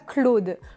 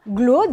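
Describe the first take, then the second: First: The name begins with a K sound. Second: The name begins with a G sound. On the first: The speaker calls it wrong. "et non pas Claude" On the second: The speaker calls it right. "Le C se prononce quelquefois comme un G"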